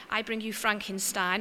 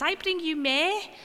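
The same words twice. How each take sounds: First: Said in the usual way. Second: Put-on slow, high Liverpool Scouse accent. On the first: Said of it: "mess up the words". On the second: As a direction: say it like a Scouse kid. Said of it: "in a good Scouse accent".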